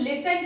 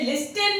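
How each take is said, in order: First: The t sound is silent. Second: The t sound is pronounced. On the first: The speaker calls it right. "इसे हम लिसन कहते हैं क्योंकि टी silent हो गया है" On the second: The speaker calls it wrong. "इसे लिस्टन नहीं कहते हम"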